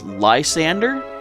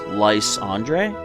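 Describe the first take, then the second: First: The name ends like the English name Sander. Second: The name ends like the French name Andre. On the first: This is how others commonly say the name. "in the anime it's pronounced Lysander" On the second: This follows the French origin of the name. "Andre is a French name, so in my mind, I see this as Lysandre"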